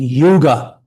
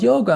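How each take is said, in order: First: The first vowel sounds like 'oo' in 'too'. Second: The first vowel sounds like 'oh' in 'go'. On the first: It names a different thing, a vast time period. The speaker calls it wrong. "couldn't even pronounce the word yoga" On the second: It names the spiritual practice. The speaker calls it right. "It's called yoga"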